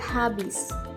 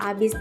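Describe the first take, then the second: First: The word starts with an 'h' sound. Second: The word starts with a vowel sound. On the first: The speaker calls it right. "setelah diperbaiki" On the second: The speaker calls it wrong. "penghilangan bunyi konsonan H"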